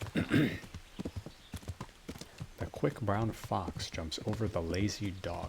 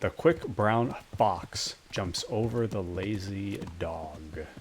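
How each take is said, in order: First: The s and z sounds come out lisped. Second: The s and z sounds come out clear. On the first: The speaker calls it wrong. "Nope. See, there it is again" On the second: The speaker calls it right. "There we go"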